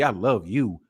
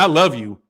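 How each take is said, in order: First: It is said in a low, seductive way. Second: It is said in a dismissive, contemptuous way. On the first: The speaker wants sex. "That means I want to get some" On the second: The speaker does not care about the listener. "That means fuck you"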